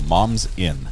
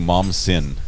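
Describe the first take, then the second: First: The s ends the first part: moms in. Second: The s starts the second part: mom sin. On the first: The speaker calls it right. "I believe that's how your name is pronounced" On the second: The speaker calls it wrong. "I've been calling you Mom's Sin"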